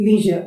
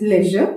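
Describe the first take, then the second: First: Leisure with a long ee; American leisure as leezhur; American English. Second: Leisure with a short e; British leisure as lezhuh; British English. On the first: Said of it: "American English में". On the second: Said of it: "British English में". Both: Shown as a demonstration.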